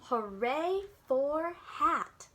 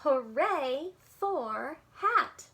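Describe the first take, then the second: First: Very slow read-along cheer; slow, clear shared cheer. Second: Very slow, louder cheer; slow, louder elephant cheer. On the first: Shown as a demonstration. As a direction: stretch each word for the child to join. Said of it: "read this part with me". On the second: Acted. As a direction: cheer it out slowly together. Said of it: "Elephant cheered".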